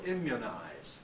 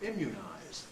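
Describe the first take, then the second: First: The second vowel is short, like in good. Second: The second vowel is short but tense, like you. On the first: "it's really much like the vowel of good for some people" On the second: "other people have it rather tenser than the vowel of good"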